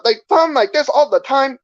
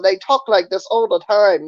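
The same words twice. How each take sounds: First: High caricatured Chinese accent; exaggerated Chinese-accented English. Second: Caricatured Vietnamese-accented English. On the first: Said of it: "But Chinese people". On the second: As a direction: put on a mock Vietnamese accent. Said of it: "And then the Vietnamese people". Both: Shown as a demonstration.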